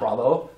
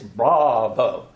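First: The syllables are run together, not fully pronounced. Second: Each syllable is pronounced fully and distinctly. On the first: The speaker calls it wrong. "It's not bravo" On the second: The speaker calls it right. "it's bravo"

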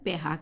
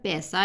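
First: The middle consonant is an h sound. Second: The middle consonant is an s sound. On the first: "ਉਹਨੂੰ ਪੈਹਾ ਕਹਿੰਦੇ ਆ" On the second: "ਜਿਹੜਾ ਪੈਸਾ ਆ"

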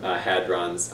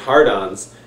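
First: The first syllable sounds like 'had'. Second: The first syllable sounds like 'hard'.

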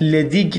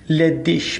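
First: The word ends with a hard g sound. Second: The word ends with a soft sh-like sound. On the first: The speaker calls it wrong. "پس لدیگ نخونید" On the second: The speaker calls it right. "به صورت ش تلفظ میکنیم"

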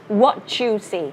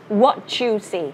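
First: The t and y merge into a ch sound. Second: The same.

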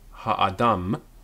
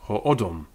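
First: The vowels are pronounced as open 'a' sounds. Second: The vowels are pronounced as rounded 'o' sounds. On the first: "or in modern Hebrew"

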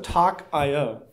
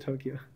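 First: It sounds like 'talk', then the letters I, O. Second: It sounds like the city name Tokyo. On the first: The speaker calls it wrong. "I thought it was talk.io because it's an IO library, but I was wrong" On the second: The speaker calls it right. "I'm pretty sure it's Tokyo"

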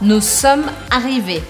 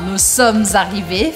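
First: Sommes and arrivés are said without a liaison. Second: Sommes is linked to arrivés with a liaison.

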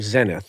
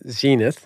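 First: It is said with a British pronunciation. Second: It is said with an American pronunciation. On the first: "as the British say" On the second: "as we Americans say"

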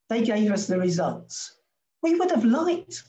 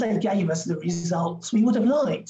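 First: There is a pause right after results. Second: It runs on with no pause after results. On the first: They wished to have seen more data. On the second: They received the results they wanted.

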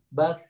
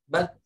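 First: The final sound continues with air flowing out. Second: The final sound stops abruptly with no airflow. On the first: The speaker calls it right. "Tuh, ada ngalir udaranya" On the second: The speaker calls it wrong. "Jangan bat. Nah, gitu itu nggak boleh kalau macet"

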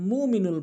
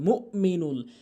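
First: There is no glottal stop after the first syllable. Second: There is a glottal stop after the first syllable. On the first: The speaker calls it wrong. "হামজার উচ্চারণ করেই না" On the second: The speaker calls it right. "হামজার উচ্চারণ করতে হবে"

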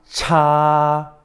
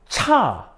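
First: It is said with the first tone. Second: It is said with the fourth tone.

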